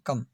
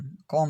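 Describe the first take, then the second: First: The vowel is a short 'uh' sound. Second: The vowel is a rounded 'o' sound. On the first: The speaker calls it right. "ये उच्चारण है सी ओ M E, कम" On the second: The speaker calls it wrong. "कॉम नहीं है"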